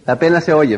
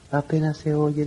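First: It is spoken at a clearly audible volume. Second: It is spoken very quietly, barely audible.

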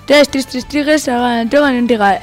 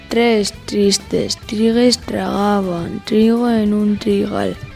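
First: It is spoken at a fast speed. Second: It is spoken at a slow speed. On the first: "Ahora a velocidad rápida" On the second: "Vamos con la lenta"

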